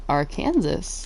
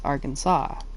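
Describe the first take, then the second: First: It is said as 'Ar' plus 'Kansas'. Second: The ending is not said like 'Kansas'. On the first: The speaker calls it wrong. "Arkansas is spelled like A R and then Kansas. But it's not Arkansas" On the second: The speaker calls it right. "it's Arkansas"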